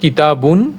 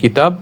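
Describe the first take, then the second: First: The word ends with an added 'un' sound. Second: The word ends on a bare final consonant. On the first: The speaker calls it wrong. "দুই পেশ দিয়ে উচ্চারণ করব না" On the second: The speaker calls it right. "সাকিন হিসেবে"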